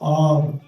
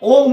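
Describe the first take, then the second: First: The vowel is an open 'a' sound, like 'aum'. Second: The vowel is a rounded 'o' sound, like 'om'. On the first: The speaker calls it right. "কথাটা আম" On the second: The speaker calls it wrong. "অনেকে বলে ওম ওম ওম ওম না"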